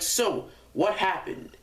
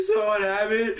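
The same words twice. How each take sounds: First: Lightly voiced teacher, slow and higher; teacher questioning. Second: High-pitched tearful kid imitation; mock crying. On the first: Teacher questions the boy in tears, slow, lightly acted question. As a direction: imitate a teacher asking, drawn out. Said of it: "she's all like". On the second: Crying boy answers the teacher, high mock-tearful voice. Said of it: "he's in tears, just crying".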